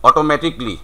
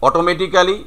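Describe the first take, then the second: First: "automatically" as oto-MATIK-lee; "automatically" ending in "tik-li", falling; correct "automatically". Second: "automatically" as oto-meti-kaa-li, rising; every written syllable of "automatically" sounded; local "automatically". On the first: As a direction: say "automatically" with the "ca" dropped. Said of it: "but it is". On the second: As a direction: say "automatically" with a full "kaa" before "li". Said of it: "আমরা বলছি". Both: Shown as a demonstration.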